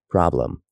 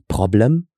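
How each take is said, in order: First: It is said with an American accent. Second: It is said with a German accent.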